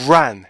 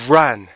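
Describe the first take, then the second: The two takes are said the same way.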